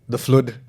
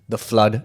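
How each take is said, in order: First: Flood is said with an unusual, altered sound. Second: Flood is said with its ordinary pronunciation.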